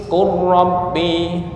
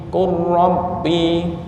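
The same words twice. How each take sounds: No difference in how they are said.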